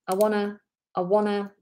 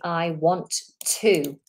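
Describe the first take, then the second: First: The T sounds are dropped, giving wanna. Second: The T sounds in want to are pronounced. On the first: "the double T, just gets dropped. Wanna, it becomes wanna" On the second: "when you say, I want to"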